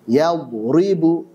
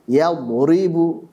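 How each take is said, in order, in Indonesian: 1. Bunyi r-nya ringan dan tipis. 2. Bunyi r-nya berat dan tebal.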